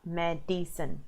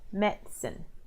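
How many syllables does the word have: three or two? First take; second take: three; two. First: The word is said with three syllables. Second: The word is said with two syllables. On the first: The speaker calls it wrong. "not medicine" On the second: The speaker calls it right. "you want to practice saying medicine"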